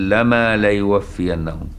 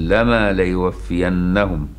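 Both takes have the same delivery.

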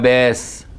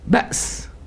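First: A long a vowel replaces the glottal stop. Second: A glottal stop is heard after the first vowel.

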